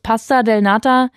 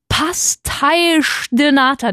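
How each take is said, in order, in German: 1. Das erste Wort endet mit einem 'a'-Laut. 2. Das erste Wort endet mit einem 'sh'-Laut. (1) "in meiner naiven Sprechweise" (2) "das heißt Pasteisch de Nata"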